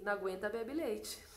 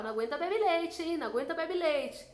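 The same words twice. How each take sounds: First: A touch lower and softer, calm divine voice; a hint of the Holy Spirit, quietly teasing; Holy Spirit's voice. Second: A bit higher, cheeky teasing jab; lightly voiced party taunt; mocking taunt. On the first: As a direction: deliver it like a gentle voice from above. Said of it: "o Espírito Santo me disse assim". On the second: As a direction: tease a friend who can't hold her drink. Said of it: "e eu falava".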